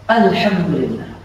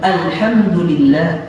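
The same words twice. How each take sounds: First: The word is said quickly and carelessly. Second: Each sound of the word is articulated clearly. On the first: The speaker calls it wrong. "Jangan sembarangan alhamdulillah" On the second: The speaker calls it right. "yang benar"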